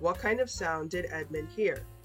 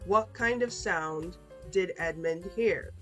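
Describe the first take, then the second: First: The question is read at normal, faster speed. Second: The question is read at a slow pace. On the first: "one time normal speed" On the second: "two times slow"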